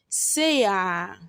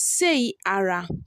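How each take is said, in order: First: The R sound is dropped entirely. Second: The R sound is clearly pronounced. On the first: "In pronunciation, we pronounce it as" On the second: "The next word is"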